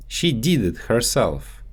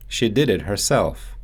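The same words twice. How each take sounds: First: Did said as "deed" with a long ee; Russian-accented "did" stretched to deed. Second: Said in the usual way. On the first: Shown as a demonstration. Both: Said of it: "so they often get mixed up in English".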